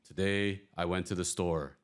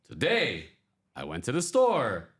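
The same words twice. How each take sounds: First: It is read flat, without pitch variation. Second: It is read lively, with high and low pitch.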